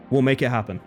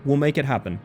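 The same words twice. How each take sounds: The two takes are said the same way.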